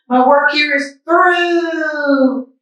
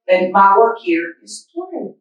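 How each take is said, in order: First: High, slow, drawn-out farewell; wise old man voice. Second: Said in the usual way. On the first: Shown as a demonstration. Mister Matu bidding farewell, slow high farewell. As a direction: say it slowly like a grand goodbye. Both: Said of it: "I think he says it like this".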